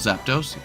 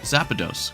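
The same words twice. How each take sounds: First: The name is said without an extra vowel. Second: The name is said with an extra 'a' vowel.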